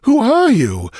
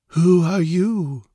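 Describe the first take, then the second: First: High, loud, astonished question; bewildered demand. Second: Slow, high, dreamy question; far-away and detached. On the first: Stranger startled by real intruders, demanding in bewilderment. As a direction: demand it urgently, pitched high. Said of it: "a look of bewilderment". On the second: Dreamy stranger questioning two intruders, far-away and detached. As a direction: ask as if from inside a dream. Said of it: "in a far-away, detached tone". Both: A narrator's reading.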